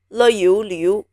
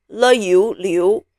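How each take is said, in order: Both takes have the same delivery.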